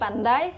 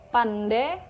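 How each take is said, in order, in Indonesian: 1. Kata itu berakhir dengan diftong ai. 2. Kata itu berakhir dengan vokal e biasa.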